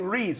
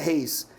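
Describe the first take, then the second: First: The name starts with an English-style R sound. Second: The name starts with an H-like sound. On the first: This is how foreigners mispronounce the surname. The speaker calls it wrong. "Aí eles falam" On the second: This is the speaker's real surname pronunciation. The speaker calls it right. "meu sobrenome é Reis"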